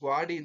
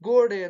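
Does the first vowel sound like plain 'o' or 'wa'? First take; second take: wa; o. First: The first vowel becomes wa, ending in i. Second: The first vowel is a plain long o. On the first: This is the Dharwad-region form. "ಅವರು ಗ್ವಾಡಿ ಅಂತ ಕರಿತಾ ಹೋಗ್ತಾರೆ" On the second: This is the Mysore-region form. "ಗೋಡೆ ಅಂತ ಕರಿತೀವಿ ನಾವು"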